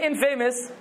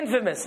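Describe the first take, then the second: First: The stress is on the second syllable. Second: The stress is on the first syllable. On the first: The speaker calls it wrong. "When you add the in, you don't say infamous" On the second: The speaker calls it right. "You say infamous"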